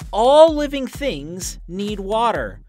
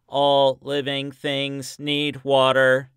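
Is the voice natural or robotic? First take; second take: natural; robotic. First: It is said in a natural human voice. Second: It is said in a put-on robot voice.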